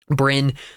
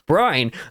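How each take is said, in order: First: The name has a short vowel, like 'win'. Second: The name has a long vowel, like 'wine'. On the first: "I pronounced it the different way than I said I would" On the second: "I'm going to continue to call him Brine"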